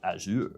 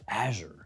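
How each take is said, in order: First: The word is said in a fancier-sounding way. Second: The word is said in a plain, ordinary way.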